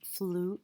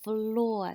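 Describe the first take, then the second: First: The vowel is a long oo sound. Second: The vowel is an or sound. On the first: The speaker calls it wrong. "F, uh, oo, r" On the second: The speaker calls it right. "that trigraph makes the or sound"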